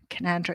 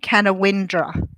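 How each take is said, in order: First: The name is said without a 'win' syllable. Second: The name is said with a 'win' syllable. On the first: The speaker calls it right. "someone said it's Canandra" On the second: The speaker calls it wrong. "when I pronounced it, I went Canawindra"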